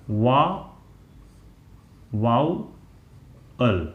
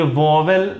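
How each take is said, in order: First: वा-, वाउअल very slowly, "vaa... vau... ul"; correct pronunciation वाउअल. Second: वॉवेल said "VAW-vel", with a second v; mispronounced वॉवेल. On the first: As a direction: sound out वाउअल piece by piece, no middle v. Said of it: "इसको पढ़ते हैं". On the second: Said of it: "ये वॉवेल नहीं पढ़ा जाता". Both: Shown as a demonstration.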